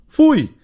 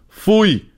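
First: Much higher, loud foei dropping hard; shouted foei. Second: High, clipped foei, falling off; a mother's reprimand to the dog; wife scolding. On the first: Dad yelling at the puppy stealing the roll, loud. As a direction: bellow the reprimand at the pup. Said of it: "riep ik". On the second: Wife scolding the puppy, stern mock reprimand. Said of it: "riep vrouwlief". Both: Retold or imitated.

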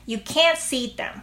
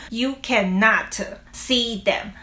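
First: Can't punched, t nearly dropped; natural You can't see them with the weight on can't; stress on can't. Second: You cannot drawn out, every syllable full; slow, clunky You cannot see them; You cannot said slowly. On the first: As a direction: hit can't, let the t fade. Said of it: "那你再教我们讲一次". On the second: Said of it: "你不会说". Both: Shown as a demonstration.

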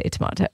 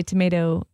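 First: Tomato said "tuh-MAH-toh"; tomato with an open "ah" in the middle; broad-A tomato. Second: Tomato said "tuh-MAY-toh"; tomato with the middle vowel as in may; long-A tomato. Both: Shown as a demonstration. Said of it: "you say tomato".

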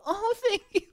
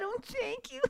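First: High, laughing thank-you; a squeaky surprised thanks; mock surprised thanks. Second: High, soft thank-you; a breathy squeaked thanks; mock surprised thanks. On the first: Swallowing the gum's burst, high surprised thanks. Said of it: "and you go". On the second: Retelling what he always said, soft high thanks. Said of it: "I always said".

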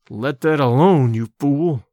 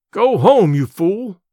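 First: Low, slow growled warning into the ear. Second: Shouting. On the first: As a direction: growl it low and hard, slowly. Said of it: "I growled in his ear". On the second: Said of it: "I shouted". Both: Acted.

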